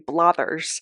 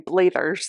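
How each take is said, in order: First: The first vowel differs from the Scottish 'Mathers'. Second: The first vowel matches the Scottish 'Mathers'. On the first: The speaker calls it right. "than it is for me to say" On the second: The speaker calls it wrong. "It is much easier for me to say Blathers"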